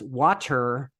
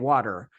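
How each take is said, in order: First: The t is pronounced as a clear t. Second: The t is a soft flap, American-style.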